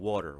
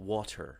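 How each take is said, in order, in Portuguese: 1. Dito com sotaque americano e um t batido. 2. Dito com sotaque britânico e um t claro. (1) "Aqui fala tudo batido" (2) "lá eles falam water"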